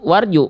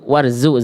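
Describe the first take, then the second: First: The middle consonant is a j sound. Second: The middle consonant is a z sound. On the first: The speaker calls it wrong. "Maafin jangan warju" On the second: The speaker calls it right.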